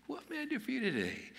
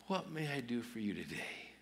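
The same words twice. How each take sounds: First: Very high, put-on sing-out voice; sweet household offer. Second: Soft, unhurried question; gentle offer. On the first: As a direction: pitch it far up, offering help at home. Same household words, second take. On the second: Acted. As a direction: offer help softly, as if to yourself. Morning words imagined at home, first take.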